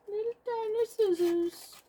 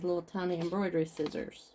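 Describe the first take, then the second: First: Put-on very high, teeny-tiny voice; playful tiny voice. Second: Said in the usual way. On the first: Crafter showing off her tiny scissors, playful high voice. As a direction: squeak it playfully, as if tiny yourself.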